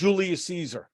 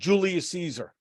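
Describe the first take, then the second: First: It is said with an American pronunciation. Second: It is said with an American pronunciation.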